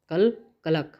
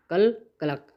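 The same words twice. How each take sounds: First: Mock cackle, "कल कलक" clucked out like a hen; hen cackle imitation. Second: Said in the usual way. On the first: Shown as a demonstration. Teacher imitates a hen's cackle for students. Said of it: "मेरा कल लक बहुत अच्छा रहा". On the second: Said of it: "यानी मेरा जो कल था".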